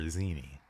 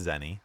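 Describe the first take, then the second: First: "Zeni" as ZEE-nee, long ee. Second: "Zenny" with short e, like penny. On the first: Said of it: "But I prefer Zeni". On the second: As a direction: say "Zenny" as ZEN-nee. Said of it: "if you look at how it's spelled". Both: Shown as a demonstration.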